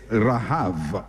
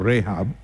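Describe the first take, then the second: First: The word ends with a V sound. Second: The word ends with a B sound. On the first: The speaker calls it right. "sometimes B is pronounced as V. So it's rahav" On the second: The speaker calls it wrong. "although it looks like rahab"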